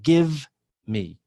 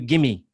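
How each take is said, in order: First: The two words are said clearly apart. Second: The two words blend into one word. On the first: "Instead of give me" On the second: "Assimilation, combining sounds. If I say to you, gimme"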